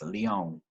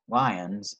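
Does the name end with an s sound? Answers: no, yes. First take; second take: no; yes. First: The name ends without an s sound. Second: The name ends with an s sound. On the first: The speaker calls it right. "It's just Lyon of the French uh, saying of that" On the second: The speaker calls it wrong. "I don't think there's an S on there"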